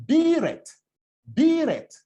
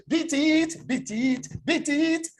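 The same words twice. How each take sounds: First: "Beat it" with a long high EE, short falling "it"; clear "Beat it". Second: "Beat it" run together as "bee-teet"; same EE vowel in "Beat" and "it", quickly repeated; mock Nigerian pronunciation. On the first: Shown as a demonstration. Coach quoting [name]'s diction, long-vowelled "Beat it". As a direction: stretch the vowel of "Beat", drop on "it". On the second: Coach mimicking a Nigerian learner, "bee-teet" for "Beat it". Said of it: "If you now say you're a Nigerian".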